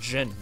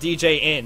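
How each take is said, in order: First: The d and j sounds blend into one. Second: The d and j sounds are split apart. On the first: The speaker calls it right. "That's how you say it. That's a DJ noise together" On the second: The speaker calls it wrong. "It's not DJ in"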